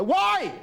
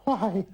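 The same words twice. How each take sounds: First: "Why?" shot up much higher and louder in mock outrage; indignant wife. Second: A mock breathy "Why?" jolted out on each thrust, a bit higher; mock breathless wife in bed. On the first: Old comic imitates wife questioning money, indignant high squawk. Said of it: "talking about money in the kitchen". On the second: Old comic imitates wife in bed, mock breathless gasp. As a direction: imitate a wife gasping "Why?" under the duvet. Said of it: "they go".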